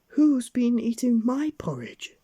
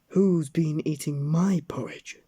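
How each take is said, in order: First: It is said in a medium, ordinary voice. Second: It is said in a loud, gruff voice.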